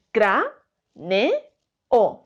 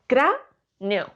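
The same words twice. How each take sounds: First: "cra, ne, o" with a pause after each syllable; split into syllables. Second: "cra" then "neo" run together as one syllable; wrong syllable split. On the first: Teacher showing pupils the split, syllable by syllable. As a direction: tap out "cra", "ne", "o" one by one, pausing between. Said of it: "Si tengo que separar esta palabra en sílabas, diría". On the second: Teacher showing the wrong split, "neo" as one syllable. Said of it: "No diría". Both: Shown as a demonstration.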